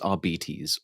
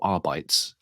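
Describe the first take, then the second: First: The word is not pronounced as spelled. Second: The word is pronounced as spelled.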